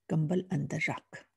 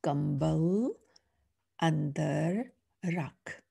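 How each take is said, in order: First: Said in the usual way. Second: Andar rakh drawn out slowly, word by word; slow reading. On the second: Shown as a demonstration. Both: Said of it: "now let's read the sentence".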